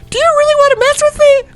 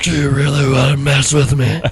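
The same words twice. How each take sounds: First: It is said in a high, squeaky voice. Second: It is said in a normal voice.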